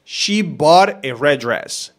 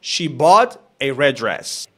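First: She bought a red dress said slowly; slow example sentence; slow example read. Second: She bought a red dress slowly with red dress linked; linked slow sentence; slow linked example. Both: Shown as a demonstration. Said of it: "tenemos acá".

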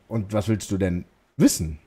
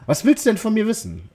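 First: Said in the usual way. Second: A lightly higher feminine lilt; lightly voiced girl asking back. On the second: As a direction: soften it into a girl's voice. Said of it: "weibliche Betonung reinzukriegen".

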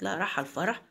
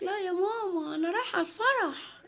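First: A hint of a mother echoing her daughter in doubt; low start, rising into a question. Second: Put-on high-pitched child voice; little girl Mona. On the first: (أم بتسأل باستغراب خفيف) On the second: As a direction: answer mum as a small girl, voice pitched right up. (صوت بنت صغيرة رفيع) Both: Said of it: "قالت".

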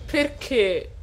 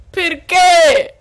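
First: Said in the usual way. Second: Perché? yelled higher and louder; exasperated cry. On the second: Real, not acted. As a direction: throw Perché? out in outrage. Repeated in disbelief. (Perché? gridato più alto e forte)

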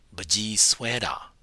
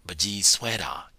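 Both takes have the same delivery.

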